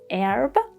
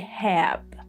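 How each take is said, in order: First: The word starts without an H sound. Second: The word starts with an H sound. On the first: "In American pronunciation, the first H is silent" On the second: "in British pronunciation, no, they pronounce H"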